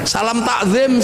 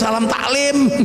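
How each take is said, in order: First: It is said with standard Arabic pronunciation. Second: It is said with a Javanese accent.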